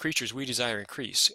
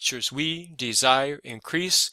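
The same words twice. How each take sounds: First: The stresses fall lightly as in ordinary speech. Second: Every stressed beat is hit with exaggerated force. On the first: The speaker calls it right. "the scansion replicates our modern language" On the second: The speaker calls it wrong. "in performance, you are not going to talk like this. That that's crazy"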